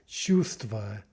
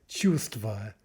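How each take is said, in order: Both takes have the same delivery.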